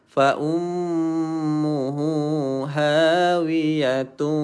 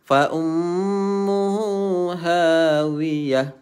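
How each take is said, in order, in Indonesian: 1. Kata terakhir berakhir dengan bunyi t, lalu bersambung. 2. Kata terakhir berakhir dengan bunyi h, lalu berhenti. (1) "kalau sambung" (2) "kalau berhenti dia jadi ha"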